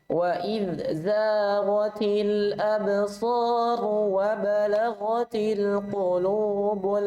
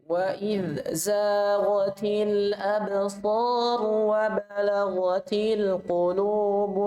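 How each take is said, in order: Both takes have the same delivery.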